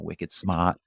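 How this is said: It is said in a Boston accent.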